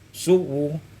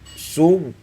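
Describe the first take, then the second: First: The final sound carries a faint, brief vowel. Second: The final sound stops fully with no vowel. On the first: "kemudian rum" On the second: "dengan bacaan sukun"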